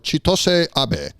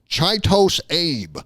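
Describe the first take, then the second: First: The first name ends with a sounded final vowel. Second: The first name ends without a final vowel. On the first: This is the speaker's best guess at the real name. The speaker calls it right. "It's Ch- Chitos or Chitose Abe. That's my best guess" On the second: This is how many Americans would say it. The speaker calls it wrong. "mad Americans are going to pronounce that Chitos Abe, but it's not Chitos Abe"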